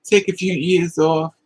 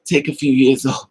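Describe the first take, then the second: First: Slower, deliberate restatement; firm, slowed-down advice; slow emphatic repeat. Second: Breaks into a laugh midway; chuckling mid-sentence; laughing advice. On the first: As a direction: lay each word down slowly. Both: Real, not acted.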